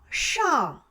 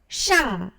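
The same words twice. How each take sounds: First: The syllable ends in an open back nasal. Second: The syllable ends in a front nasal sound. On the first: The speaker calls it right. "열려야 돼요" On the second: The speaker calls it wrong. "샹 하면 안 돼요"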